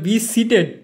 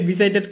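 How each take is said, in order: First: The second word sounds like 'seated'. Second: The second word sounds like 'sighted'. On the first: The speaker calls it right. "ওটা be সিটেড" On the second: The speaker calls it wrong. "বি সাইটেড বি সাইটেড কইতেছিস"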